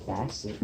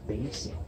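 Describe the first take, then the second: First: "basic" with a short A, like BASS the fish: BASS-ick; wrong short A. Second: "basic" with a long A, BAY-sick; correct long A. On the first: Teacher showing the wrong sound, short A in "basic". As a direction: mispronounce "basic" with the vowel of cat. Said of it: "It's not a". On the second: Teacher correcting to the right sound, long A in "basic". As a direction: say "basic" with first vowel as in day. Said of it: "We hear the long A sound". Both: Shown as a demonstration.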